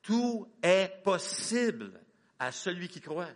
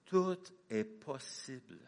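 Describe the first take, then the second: First: Slow, stretched, TOUT drawn out; slow emphatic proclamation. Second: Slow, stressing each word; slow emphatic proclamation. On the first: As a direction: lean hard on tout, slowly. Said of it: "répéter ça à haute voix avec moi". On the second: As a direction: proclaim it slowly, weight on est. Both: Shown as a demonstration.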